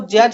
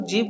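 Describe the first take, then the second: First: The letter is pronounced as zed. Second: The letter is pronounced as zee. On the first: The speaker calls it wrong. "इसको जेड नहीं" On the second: The speaker calls it right. "इसको जी बोलते हैं"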